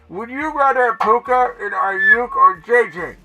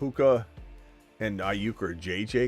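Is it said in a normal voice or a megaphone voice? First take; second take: megaphone voice; normal voice. First: It is read in a loud megaphone voice. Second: It is read in his normal voice.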